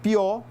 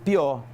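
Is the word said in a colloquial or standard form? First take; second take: standard; colloquial. First: The word is said in its standard form. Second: The word is said in a colloquial form. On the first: "Para dizerem pior" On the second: "dizem pior"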